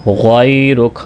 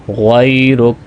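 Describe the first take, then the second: No difference in how they are said.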